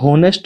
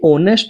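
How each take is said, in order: First: The word starts with an audible h sound. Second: The word starts with a vowel, no h. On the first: The speaker calls it wrong. "ये होनेस्ट नहीं होता है" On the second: The speaker calls it right. "ये ऑनेस्ट होता है, एच इसमें silent होता है"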